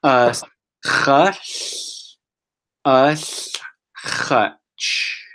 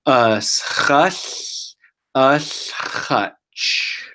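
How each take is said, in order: First: "Us", "hush", "us", "hutch" split by clear pauses; broken into parts. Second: "Us hush, us hutch" said slowly in one flow; slow and together. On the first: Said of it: "I'm gonna say it one more time". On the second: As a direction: join "Us hush, us hutch" smoothly, nice and slow. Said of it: "say this word all together and slow". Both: Shown as a demonstration.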